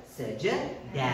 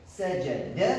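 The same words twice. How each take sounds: First: Sajada slowly with a long final A; careful long ending. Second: Sajada with a short final vowel; careful short ending. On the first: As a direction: say sajada ending on a falling daaa. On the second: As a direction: say sajada ending on a brief, rising duh. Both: Shown as a demonstration. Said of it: "prononce-le bien".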